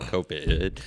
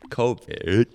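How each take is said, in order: First: The first vowel is stretched and stressed. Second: The first vowel is short and plain. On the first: "emphasis on the I in there, like 18 I's" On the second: "It's not that one"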